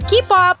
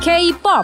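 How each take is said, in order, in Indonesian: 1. Huruf K diucapkan 'kah', bukan menyebut nama hurufnya. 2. Huruf K diucapkan seperti nama huruf dalam bahasa Inggris. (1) "no more K-pop" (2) "ini pengucapan yang benar"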